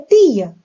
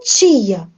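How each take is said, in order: First: It is said in a European Portuguese accent. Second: It is said in a Brazilian accent. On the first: This is how it is said in Portugal. "aqui é tia" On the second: This is how the speaker says it at home. "Eu falo tia"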